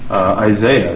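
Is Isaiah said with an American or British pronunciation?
American. The name is said with an American pronunciation. "I use the American pronunciation because I'm an American"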